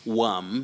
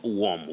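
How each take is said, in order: First: The vowel sounds like the one in 'worm'. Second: The vowel sounds like the one in 'warm'. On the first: The speaker calls it right. "O R worm" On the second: The speaker calls it wrong. "not worm. Worm is W A R M, like warm water"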